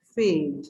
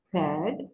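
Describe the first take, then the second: First: फेड with a long a that sounds like the letter's name; long a in fade. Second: फैड with a short, open a as in bat; short a in fad. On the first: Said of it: "फेड में आप ए को feel कर सकते हो". (फेड में लंबी ए की आवाज़) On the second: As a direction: say फैड with the short a, not the name of the letter. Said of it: "तो ये आपका शॉर्ट साउंड है". (फैड में छोटी ऐ की आवाज़) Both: Shown as a demonstration.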